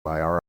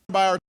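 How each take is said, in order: First: The two words are said faster and linked. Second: The two words are said very fast, merged.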